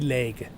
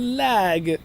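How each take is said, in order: First: The vowel sounds like the one in beg. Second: The vowel sounds like the one in bag. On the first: The speaker calls it right. "it would be leg" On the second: The speaker calls it wrong. "it's not lag"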